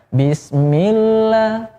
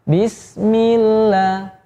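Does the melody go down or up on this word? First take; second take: up; down. First: The melody heads upward as if taking off. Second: The melody heads downward from the start. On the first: The speaker calls it wrong. "kalau bismillah itu nadanya pengen take off" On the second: The speaker calls it right. "landing dari awal juga sudah ancang-ancang untuk landing"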